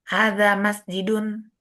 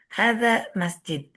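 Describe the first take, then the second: First: The last word ends with an added 'un' syllable. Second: The last word ends on a bare consonant. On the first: This is the careful form used when studying. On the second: This is the everyday spoken form.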